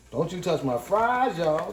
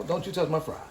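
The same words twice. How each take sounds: First: Drawn out, teasing, each word stretched slowly; slow mock warning. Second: Said in the usual way. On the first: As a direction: savor the threat playfully. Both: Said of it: "one order of don't you touch my fries".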